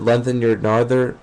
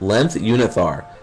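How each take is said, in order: First: The name sounds like 'lengthen your narther'. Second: The name sounds like 'length unithar'. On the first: The speaker calls it wrong. "I didn't know how to say it" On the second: The speaker calls it right. "maybe that makes more sense"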